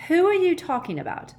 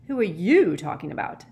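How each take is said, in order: First: "are" pitched very high, then falling; high, louder cry stressing "are"; baffled outburst. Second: Usual pitch, leaning hard on "you"; question thrown back. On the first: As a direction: blurt it out, voice leaping up on "are". Ron baffled, Harry asks it back. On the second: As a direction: turn it back with stress on "you". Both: A narrator's reading.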